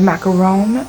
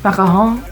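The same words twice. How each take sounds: First: The word is said in a plain English accent. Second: The word is said in a French accent.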